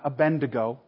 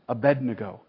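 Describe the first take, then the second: First: The second syllable is said as 'bend'. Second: The second syllable is said as 'bed'. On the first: The speaker calls it wrong. "not Abednego ... It's not Abend" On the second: The speaker calls it right. "it's Abednego"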